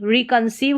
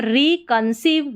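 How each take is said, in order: First: Said in the usual way. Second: रिकंसीव said slowly as re, con, seev; slow, in parts. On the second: Shown as a demonstration. Teacher sounds out a spelling pattern, slow and split. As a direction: stretch रिकंसीव out part by part.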